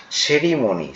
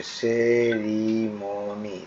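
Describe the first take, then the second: First: Said in the usual way. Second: সেরিমনি very slow, each vowel held long; almost chanted, stretched সেরিমনি; syllable by syllable. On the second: Shown as a demonstration. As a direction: draw out সেরিমনি as se-ri-mo-ni. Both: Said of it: "দেখো কিভাবে করছে".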